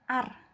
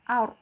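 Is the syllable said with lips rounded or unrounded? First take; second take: unrounded; rounded. First: The vowel is said with unrounded, spread lips. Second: The vowel is said with rounded, O-shaped lips. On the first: The speaker calls it wrong. "Bukan bukan hanya seperti ini" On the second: The speaker calls it right. "tapi harus membentuk huruf O"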